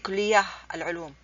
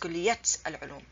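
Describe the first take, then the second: First: The first word ends with an h sound. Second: The first word ends with a t sound. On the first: The speaker calls it wrong. "I did not say kulliyah al-ulum" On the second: The speaker calls it right. "It's kulliyat al-ulum"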